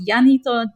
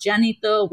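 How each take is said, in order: First: Janito said with an opening Y sound, "Yanito"; alternative pronunciation. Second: Janito said with an opening J sound, "Jannito"; alternative pronunciation. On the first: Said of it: "which is also pronounced Janito". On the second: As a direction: start Janito on a J as in "jam". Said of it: "whichever way you wanna pronounce it". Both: Shown as a demonstration.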